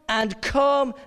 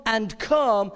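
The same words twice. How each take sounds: The two takes are said the same way.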